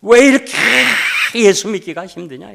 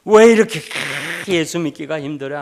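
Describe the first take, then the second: First: High, loud anguished wail; wailing cry. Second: High, loud anguished cry fading off; a retold sob that softens at the end; wailing cry. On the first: Retold or imitated. Deaconess wailing to the pastor at night, anguished cry. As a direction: cry it out like a woman breaking down. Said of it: "통곡을 하는 거예요". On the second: Deaconess weeping before the pastor, fading cry. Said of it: "통곡의 눈물을 흘린 거예요".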